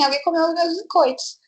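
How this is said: It is said in a calm, unbothered tone. The missing cookies are no big deal. "ah, tudo bem"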